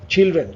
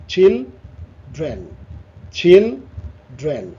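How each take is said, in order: First: Said in the usual way. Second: "children" as চিল, pause, drain; split in two. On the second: Shown as a demonstration. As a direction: say "children" in two separate beats, slowly. ("Children" দুই ভাগে থেমে থেমে) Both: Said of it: "এখানে দুটো".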